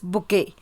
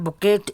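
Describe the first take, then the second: First: The word is said like 'book-A'. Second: The word is not said like 'book-A'. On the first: The speaker calls it right. "we pronounce it as book A" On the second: The speaker calls it wrong. "It's not bouquet"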